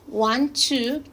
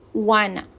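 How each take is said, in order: First: The phrase is said in its full form. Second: The phrase is reduced to 'wanna'.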